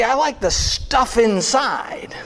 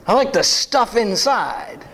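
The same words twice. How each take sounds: First: Whispered then plain. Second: Said in the usual way. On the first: Shown as a demonstration.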